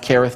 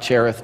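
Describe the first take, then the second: First: The name begins with a hard K sound. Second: The name begins with a soft ch sound. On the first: The speaker calls it right. "We know it's pronounced Kereth" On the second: The speaker calls it wrong. "not Cherith"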